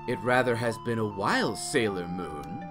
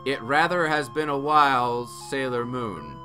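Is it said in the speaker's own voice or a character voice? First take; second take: character voice; own voice. First: It is said imitating Doctor Tomo's voice. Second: It is said in the speaker's own voice.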